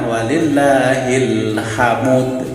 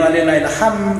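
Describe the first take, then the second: First: The last word ends as 'hamud' with a moved vowel. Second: The last word is cut short to 'ham'. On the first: The speaker calls it right. "Itu bacaan nakal" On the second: The speaker calls it wrong. "nggak ada artinya"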